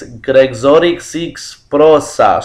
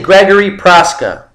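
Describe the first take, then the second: First: The name is said with Polish-like sounds. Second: The name is said with American sounds. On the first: "it's some Polish, you know. It's like I think it's" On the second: "I'm gonna say the American, the American pronunciation of his name"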